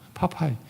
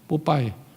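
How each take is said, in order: First: The name starts with an aspirated p sound. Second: The name starts with a tense pp sound. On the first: This is the original form of the name. The speaker calls it right. "이게 원래 파파이잖아요" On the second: This form came through a Japanese rendering. The speaker calls it wrong. "일본 애들이 뽀빠이 그래가지고 우리가 뽀빠이가 된 거야"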